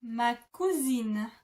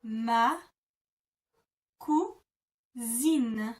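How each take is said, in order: First: "Ma cousine" joined in one slow, careful breath; teacher models the whole phrase slowly. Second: "Ma" then a long pause, then "cousine" alone; teacher separating "Ma" and "cousine" with a pause; broken into syllables. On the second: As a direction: split "Ma … cousine" into two slow chunks with a gap. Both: Shown as a demonstration. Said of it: "you would say".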